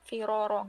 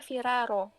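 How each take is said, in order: First: The r sounds are heavy and full. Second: The r sounds are light and thin. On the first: The speaker calls it right. "Jadi dia tetap tafkhim gitu" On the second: The speaker calls it wrong. "nggak bisa viraro, nggak bisa ya"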